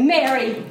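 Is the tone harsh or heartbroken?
harsh. It is said in a harsh, scolding tone.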